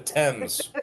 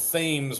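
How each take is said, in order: First: It is said 'Temz', with a plain 't' sound. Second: It is said as spelled, with a 'th' sound. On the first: This is how the English actually say it. "but they call it the Thames" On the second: This is how the spelling looks. "It's spelled Thames"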